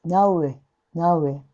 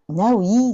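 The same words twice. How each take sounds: First: Now we with a single pure vowel in we. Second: Now we said the wrong way, vowels not kept pure. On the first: Teacher modelling the correct now we. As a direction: keep the vowel in we pure and clean. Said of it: "単母音なので". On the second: Teacher contrasting the wrong version of now we. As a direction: say now we as a learner would, the way to avoid. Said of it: "now weじゃなくて". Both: Shown as a demonstration.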